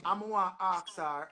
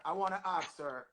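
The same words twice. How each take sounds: First: "wanna ask her" in Patois vowels; Jamaican Patois phrasing. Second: Softer standard-English "wanna ask her"; careful standard English. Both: Real, not acted. Rephrases patois into standard English.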